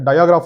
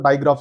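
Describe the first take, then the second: First: The word is said as dia-graph, three syllables. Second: The word is said as dai-graph, two syllables. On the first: The speaker calls it wrong. "ಡಯಾಗ್ರಾಫ್ ಅಲ್ಲ" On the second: The speaker calls it right. "ಡೈಗ್ರಾಫ್ ಅಂತ pronounce ಮಾಡಬೇಕು"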